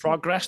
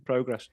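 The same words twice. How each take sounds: First: "Progress" with a short American first vowel; American pronunciation. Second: Said in the usual way. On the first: Real, not acted. Speaker catching himself turning American, American pronunciation of "Progress". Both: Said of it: "did I turn American?".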